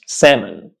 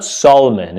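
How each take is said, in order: First: "salmon" as SAM-un, silent L; no L at all in "salmon"; correct pronunciation. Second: "salmon" as SOL-uh-mun, L sounded; wrong pronunciation. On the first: Teacher correcting the error, "salmon" said SAM-un. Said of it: "it's salmon". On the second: Teacher showing the error, "salmon" with L voiced. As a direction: mispronounce "salmon" with a clear L. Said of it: "It's not salmon". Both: Shown as a demonstration.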